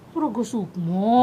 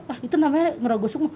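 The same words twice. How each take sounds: First: Slow, questioning repeat of the term; puzzled echo. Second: Said in the usual way. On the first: Retold or imitated. Woman recalling her reply to people naming it, puzzled echo. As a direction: echo it slowly, not understanding. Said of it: "aku juga nggak ngerti kan". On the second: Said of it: "ya kalau orang bilang".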